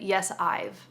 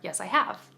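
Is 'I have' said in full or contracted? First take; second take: contracted; full. First: The words 'I have' are contracted to 'I've'. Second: The words 'I have' are said in full. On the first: The speaker calls it wrong. "don't contract it right there" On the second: The speaker calls it right. "or "Yes, I have." Okay?"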